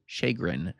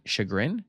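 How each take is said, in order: First: "Chagrin." said firmly with a falling tune as SHAY-grin; landing on "Chagrin." with confidence; settled pronunciation. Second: "Chagrin?" asked with a rising, doubtful tune, said SHIG-rin; unsure pronunciation. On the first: Narrator settling on the word, "Chagrin." falling and sure. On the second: Narrator checking how to say the word, "Chagrin?" rising in doubt. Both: Shown as a demonstration.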